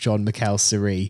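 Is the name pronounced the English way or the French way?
French. The name is pronounced with French sounds. The speaker calls it right.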